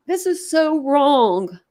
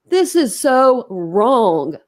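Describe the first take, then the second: First: Slow, sorrowful protest; upset lament. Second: SO and WRONG drawn out very slowly; weighty, hammered "so wrong", very slow; emphatic repeat. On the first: Streamer grieving over delayed justice, slow and upset. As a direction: draw the words out in sorrow. Crying over the case, repeats. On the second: Streamer protesting delayed justice, "so wrong" stretched out emphatically. Crying over the case, repeats harder. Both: Real, not acted.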